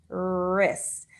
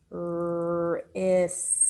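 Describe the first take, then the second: First: Said in the usual way. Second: "Wrist" as long r, i, long s, separate t; sound by sound. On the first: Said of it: "How many sounds are in that word?". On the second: Shown as a demonstration. Teacher shows pupils four sounds, sound by sound. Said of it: "We have four sounds".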